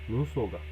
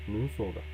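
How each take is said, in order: The two takes are said the same way.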